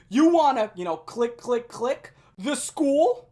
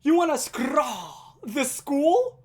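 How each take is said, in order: First: Loud, high taunt with mimed clicking sounds; loud mocking yell. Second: Loud, high and very slow, every word stretched; slow drawn-out yell. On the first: Classmate taunting Lewis in class, loud mocking yell. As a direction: shout the taunt for the whole room. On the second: Retold or imitated. Classmate repeating his taunt at Lewis, slow drawn-out yell. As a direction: drag the taunt out like a slurred chant. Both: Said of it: "yell this at the top of his lungs".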